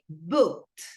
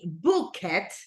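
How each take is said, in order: First: The ending is a plain t sound. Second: The ending is an extra syllable. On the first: The speaker calls it right. "al final un t" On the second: The speaker calls it wrong. "we don't say book it"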